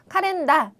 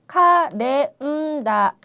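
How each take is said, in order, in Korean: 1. 장음은 짧게 끊어요. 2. 장음은 한 박자 더 길게 늘여요. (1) "이렇게 발음을 한 게 아니라" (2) "꼭 한 박자씩 세서 발음을 해야 예쁜 발음"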